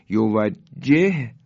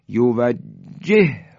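First: یوجهه slowly, stopping on the first h before a separate hu; unmerged h. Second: یوجهه with the two h sounds joined into one long breath; slow یوجهه, pressing through the doubled h into hu; merged h. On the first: Teacher showing both letters before merging, separated h. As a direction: say یوجهه in parts, pausing between the two h sounds. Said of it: "های اول ساکن". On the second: Teacher showing what it becomes when merged, held h. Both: Shown as a demonstration.

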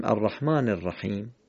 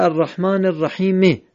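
First: "الرحیم" closed on m, rahim; stopped on sukun. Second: "الرحیم" ending on an added short e, rahime; higher-pitched "الرحیم" with its end vowel pronounced; final vowel voiced. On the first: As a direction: end "الرحیم" on a plain m with no vowel after it. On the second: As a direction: sound the written kasra after the m of "الرحیم". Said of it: "نوشته". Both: Shown as a demonstration.

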